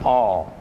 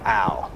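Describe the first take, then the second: First: The vowel sounds like the one in ball. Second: The vowel sounds like the one in pal. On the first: It suggests the compound is an alcohol. The speaker calls it wrong. "that is not pronounced all" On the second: It marks the compound as an aldehyde. The speaker calls it right. "you have to be very intentional about pronouncing that Al"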